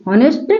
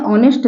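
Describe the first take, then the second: First: हॉनेस्ट with H at the start, rising; wrong sounded H. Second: ऑनेस्ट opening on the vowel; silent H. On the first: Teacher marks it wrong, हॉनेस्ट with H sounded. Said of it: "गलत है". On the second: Teacher marks it right, ऑनेस्ट with silent H. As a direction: leave the H off ऑनेस्ट. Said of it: "ऑनेस्ट सही है". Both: Shown as a demonstration.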